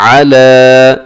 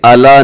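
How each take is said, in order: First: अला with throaty ayn and long held aa; slow, drawn-out अला; correct tajweed. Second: अला opening on a plain "a", no ayn; quick, everyday अला; wrong pronunciation. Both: Shown as a demonstration. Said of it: "इसे अला नहीं पढ़ना".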